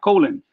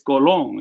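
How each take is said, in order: First: The word is said like the English body part. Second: The word is said as a Spanish surname. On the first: It names a part of the body. The speaker calls it wrong. "Colon is not colon" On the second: It is the player's name. The speaker calls it right. "it's Colon"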